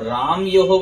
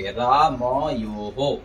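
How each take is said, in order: First: रामयोः squashed to raam-yo-ho, middle vowel dropped; wrong run-together pronunciation. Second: रामयोः very slow as raa-ma-yo-ho; correct full pronunciation. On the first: Teacher warns students of the error, रामयोः run together as raam-yoho. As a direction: swallow the "a" after m in रामयोः. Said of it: "बोलेंगे तो गलत उच्चारण है". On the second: Teacher corrects the error for students, रामयोः slow and syllable by syllable. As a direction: give "ma" its own syllable in रामयोः, long "yo". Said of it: "रामयोः नहीं कहेंगे". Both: Shown as a demonstration.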